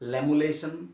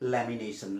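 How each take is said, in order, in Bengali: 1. শব্দটির মাঝখানটা 'mula'-র মতো শোনায়। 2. শব্দটির মাঝখানটা 'mina'-র মতো শোনায়। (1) "বহুতে কয় লেমুলেশ্যন" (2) "শুদ্ধ উচ্চাৰণটো হৈছে লেমিনেশ্যন"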